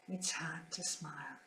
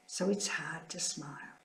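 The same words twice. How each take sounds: First: Barely audible whispered repeat, much softer; fainter whisper. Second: Whispered grief. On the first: Nun grieving at sister's passing, fainter whisper. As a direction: let the whisper almost vanish. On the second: Nun grieving at sister's passing, whispered. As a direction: whisper it through real sorrow. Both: Real, not acted.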